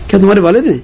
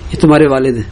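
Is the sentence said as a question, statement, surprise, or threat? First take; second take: surprise; statement. First: It is said with a tone of surprise. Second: It is said as a flat informing statement. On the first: The speaker is astonished that this is the father. "تعجب بھی ہو سکتا ہے" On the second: The speaker is informing that this is the father. "خبر بھی ہو سکتی ہے"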